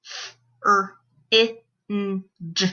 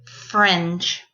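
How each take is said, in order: First: FRINGE broken into separate sounds; f... r... ih... n... j, with gaps; sounded out phonemes. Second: Said in the usual way. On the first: Shown as a demonstration. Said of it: "say the sounds in the word". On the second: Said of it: "put those sounds into a word".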